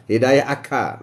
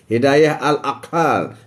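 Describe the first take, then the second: First: Said in the usual way. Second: Hidayah al-aqal drawn out slowly, every syllable weighted; slow emphatic term. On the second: Shown as a demonstration. Stating the topic term slowly.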